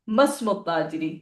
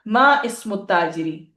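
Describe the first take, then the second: First: "मस्मु" elided into one word; joined reading. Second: "मा इस्मु" with both words separate; unjoined reading. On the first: Teacher showing students the other usable form, "मस्मु" joined. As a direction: glide straight through "मस्मु" without the "इ". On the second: Teacher showing students a usable form, "मा इस्मु" unjoined. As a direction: sound the "इ" of "इस्मु" after "मा". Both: Shown as a demonstration. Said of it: "अय्यन मुस्तअमिल".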